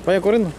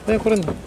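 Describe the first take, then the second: No difference in how they are said.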